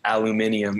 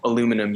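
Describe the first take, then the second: First: The word is said with an extra syllable. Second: The word is said without an extra syllable. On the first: "it's just like a weird way of saying it" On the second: "instead of saying"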